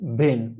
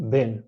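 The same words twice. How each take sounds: First: The vowel is a short, relaxed E sound. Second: The same.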